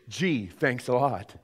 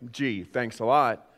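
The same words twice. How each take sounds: First: It is said in a sincerely grateful tone. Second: It is said in a sarcastic, unimpressed tone. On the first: The gift is truly appreciated. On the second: The gift is disappointingly small.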